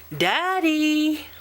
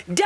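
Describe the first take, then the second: First: High call of "Daddy"; child calling Daddy; a little louder. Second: Short sharp yell of "Daddy"; child yelling for Daddy; yelled as loud as he could. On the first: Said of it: "Luke said a little louder". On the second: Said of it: "Luke yelled as loud as he could". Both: Acted.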